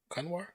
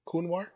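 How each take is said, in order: First: "Kunwar" tried as KUN-war, questioning; alternative pronunciation. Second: "Kunwar" tried as KOON-war, questioning; trying a pronunciation. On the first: Streamer retrying a viewer's name, "Kunwar" as KUN-war. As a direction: say "Kunwar" with a short uh in the first syllable. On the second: Streamer sounding out a viewer's name, "Kunwar" as KOON-war. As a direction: say "Kunwar" with an oo in the first syllable. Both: Shown as a demonstration. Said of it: "however it's pronounced".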